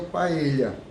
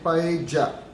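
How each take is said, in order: First: The double L sounds like 'ly'. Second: The double L sounds like 'j'. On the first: This is the pronunciation from the word's Spanish origin. "com a pronúncia do L H quando tem encontro de dois L's" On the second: This is how it is said across South America. "os dois L's têm som de D J"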